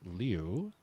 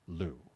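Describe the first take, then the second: First: The name is said with a 'lee-oo' vowel. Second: The name is said with a plain 'loo' vowel. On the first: This follows the name's spelling. "the Taiwanese spelling of that Chinese name would give you, it should be pronounced Liu" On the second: This is how she asked to be called. "she has asked the media to pronounce it Lu"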